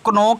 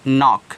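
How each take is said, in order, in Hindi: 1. शब्द की शुरुआत में k की ध्वनि है। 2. शब्द की शुरुआत में n की ध्वनि है। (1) "इसको आप क्नॉक नहीं पढ़ोगे" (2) "इसको आप पढ़ोगे नॉक"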